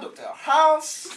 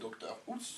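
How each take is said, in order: First: It is said in a fairly convincing American accent. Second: It is said in a plain French accent. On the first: "Celui qui arrive à peu près à faire américain" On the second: "Il y a le franco-français"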